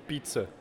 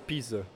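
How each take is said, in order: First: It is said the Brazilian Portuguese way. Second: It is said the European Portuguese way. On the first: This is how people in Brazil say it. "a gente fala pizza" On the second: This is how people in Portugal say it. "aqui vocês falam pizza"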